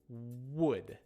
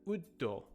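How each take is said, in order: First: Said with a natural English strong W sound. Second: Said with a Japanese accent and extra vowels. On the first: The speaker calls it right. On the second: The speaker calls it wrong. "instead of"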